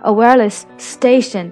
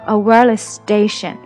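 First: Both s sounds are pronounced separately. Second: The two s sounds merge into one. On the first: The speaker calls it wrong. "你没有办法说a wireless station，这样就感觉你自己都换不过气了" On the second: The speaker calls it right. "感觉你只读了一个，但实际上你的心里面是count two s"

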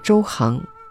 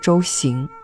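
First: The second syllable is pronounced hang. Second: The second syllable is pronounced xing. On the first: The speaker calls it right. "注意这里要念周行" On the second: The speaker calls it wrong. "不念周行"

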